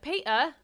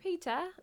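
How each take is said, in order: First: It is said in a broad cockney accent. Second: It is said in a refined, posh English accent. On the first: "get real cockney with it" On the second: "like Wendy from Peter Pan"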